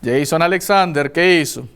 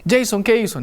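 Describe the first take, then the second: First: "Jason Alexander" said lower, the full name as a warning; mother uses his full name to warn her son; stern mother. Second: Mother asking "Jason, ¿qué hizo?" at an even pitch; a mild mother's question, not yet angry. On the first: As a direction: mom turning serious, lower and firm. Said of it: "cuando el nombre completo es dicho, usted ya sabe que viene cosa grave". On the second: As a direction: mom asks her son "¿qué hizo?", still calm. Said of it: "Empieza a decirme". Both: Retold or imitated.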